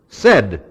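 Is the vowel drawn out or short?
short. Said with a short, clipped vowel.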